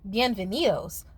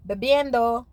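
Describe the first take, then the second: First: "Bienvenidos" said in proper Spanish, bee-en-beh-NEE-dohs; bienvenido, pronunciación correcta; correct Spanish. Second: "Bebiendo" said with a confident wrong Spanish attempt; wrong take of the welcome word; mispronounced Spanish. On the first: Shown as a demonstration. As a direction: say "Bienvenidos" the right way. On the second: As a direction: mimic the botched toast "Bebiendo". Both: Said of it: "What she meant to say was".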